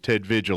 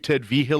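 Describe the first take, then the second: First: The surname is said without the New Mexico pronunciation. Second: The surname is said with the New Mexico pronunciation. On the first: This is how the caller's voicemail said it. "when I got your voicemail saying it was Ted Vigil" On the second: This is how people locally say it. "we've been New Mexicoifying his name"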